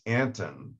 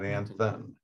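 First: The middle consonant is a plain t sound. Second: The middle consonant is a th sound. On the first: The speaker calls it right. "it's Anton" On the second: The speaker calls it wrong. "not Anthon"

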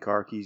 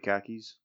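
First: The r sounds are pronounced in a general accent. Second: The r sounds are dropped in a Boston accent. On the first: "instead of saying car keys" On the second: "If you want a Boston accent, you say"

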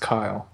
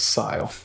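First: The name begins with a K sound. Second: The name begins with an S sound. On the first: "I refuse to pronounce it as Kyle" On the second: "I'll pronounce it as Sile"

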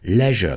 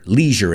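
First: It is said in a British accent. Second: It is said in an American accent. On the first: "The British pronounce it leisure, leisure, que rima con pleasure" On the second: "And we say leisure, leisure in the United States"

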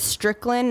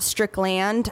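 First: The last syllable is reduced, not a full 'land'. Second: The last syllable is a full 'land'. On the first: The speaker calls it right. "your last name is Strickland" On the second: The speaker calls it wrong. "not Strickland. How often do people say Strickland with L-A-N-D?"

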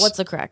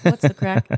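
First: It is said casually in a cool Irish accent. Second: It is said stiffly, like an awkward older American.

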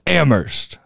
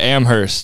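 First: The H at the start is silent. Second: The H at the start is pronounced. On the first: The speaker calls it right. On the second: The speaker calls it wrong.

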